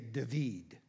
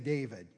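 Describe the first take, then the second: First: The name has a Hebrew pronunciation. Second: The name has its usual English pronunciation. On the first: The speaker calls it right. "You say David" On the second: The speaker calls it wrong. "in Hebrew, you don't say David"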